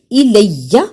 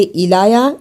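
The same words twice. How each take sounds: First: الیہ with a firm held doubled ya; firm shadda. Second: الایا with a long a, no shadda; wrong stretched alif. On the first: Teacher models the firm shadda to students. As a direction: press the ya in الیہ with a slight catch. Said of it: "تھوڑا سا سختی کے ساتھ ذرا رک کر". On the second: Teacher shows students the wrong way, stretched. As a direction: say الایا stretched, without doubling. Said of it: "اسے الایا ایسے نہیں پڑھنا". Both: Shown as a demonstration.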